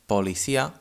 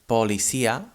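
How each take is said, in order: First: The first vowel sounds like a full 'o'. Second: The same.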